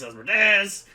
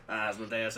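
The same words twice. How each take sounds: First: Asmodeus belted out high and loud; loud dramatic Asmodeus. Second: Said in the usual way. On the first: Shown as a demonstration. Playing with saying the name.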